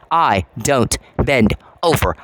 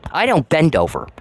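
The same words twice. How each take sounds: First: "I don't bend over" slowed right down with each word weighted; deliberate, drawn-out restatement of I don't bend over; slow emphatic repeat. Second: Said in the usual way. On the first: Shown as a demonstration. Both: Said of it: "repeated for emphasis".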